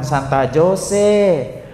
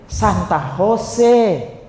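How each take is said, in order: First: Jose begins with a J sound. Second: Jose begins with an H sound. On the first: The speaker calls it wrong. "bukan Santa Jose" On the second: The speaker calls it right. "Karena huruf J itu kalau di sini dibaca jadi H"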